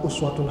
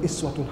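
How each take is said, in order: First: The word begins with an 'u' vowel. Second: The word begins with an 'i' vowel. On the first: "Yang satu uswatun hasanah" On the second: "yang kedua iswatun hasanah"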